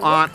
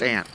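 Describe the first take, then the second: First: The word is said in a posh-sounding way. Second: The word is said in a plain, everyday way. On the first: The speaker sounds pretentious. The speaker calls it wrong. "you're so pretentious" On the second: The speaker sounds ordinary. The speaker calls it right. "It's aunt"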